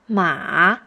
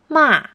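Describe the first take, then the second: First: The pitch goes low, then bounces up. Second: The pitch starts high and falls low.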